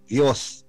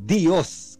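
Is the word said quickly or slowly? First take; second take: quickly; slowly. First: The word is said quickly, run together. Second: The word is said more slowly, with a y-glide. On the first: This is the Spanish pronunciation. "Spanish, Diyos. Mabilis, mas mabilis" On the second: This is the Tagalog pronunciation. "sa Tagalog, Diyos. Kasi meron tayong Y"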